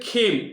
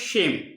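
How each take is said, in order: First: The word is given its Bengali pronunciation. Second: The word is given its Sanskrit pronunciation. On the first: The speaker calls it wrong. "বাংলায় বলবে খেম, কিন্তু খেম কথাটা ঠিক নয়" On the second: The speaker calls it right. "এখানে সংস্কৃত উচ্চারণ হলো সেম"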